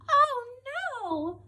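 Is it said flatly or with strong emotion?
strong emotion. It is cried out with strong emotion.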